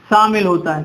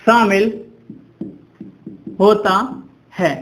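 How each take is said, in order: First: Said in the usual way. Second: Each word set apart by pauses; dictation pace. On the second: Shown as a demonstration. Dictating definition for students to write. (शब्द-शब्द अलग करके इमला बोलते हुए)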